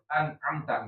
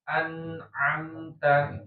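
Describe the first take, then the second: First: The n sound is cut short quickly. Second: The n sound flows briefly before moving on. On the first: The speaker calls it wrong. "jangan juga cepat an'amta" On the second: The speaker calls it right. "tapi an'amta ya. An'amta nya itu ada aliran gitu ya, tapi tidak lama"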